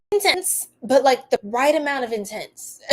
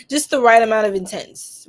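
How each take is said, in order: First: Said through a real laugh. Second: Louder, pressing the words right amount; deliberate emphasis on "right"; emphatic repeat. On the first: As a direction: giggle the words out. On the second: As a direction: land it firmly, no laugh. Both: Real, not acted.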